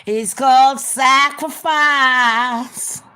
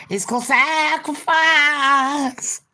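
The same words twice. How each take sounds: First: Loud, high, very slow pronouncement; solemn leader. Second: Higher solemn leader. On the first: Cult leader telling Ben he must die, loud solemn intoning. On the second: Cult leader repeating it to Ben, high eerie drawn-out chant. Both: Pretend. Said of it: "that is what we do as leaders".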